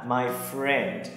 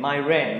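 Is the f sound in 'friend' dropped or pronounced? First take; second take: pronounced; dropped. First: The f sound at the start is pronounced. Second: The f sound at the start is dropped. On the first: The speaker calls it right. "Các bạn nhớ là my friend" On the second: The speaker calls it wrong. "hoặc là bỏ âm đọc là ren"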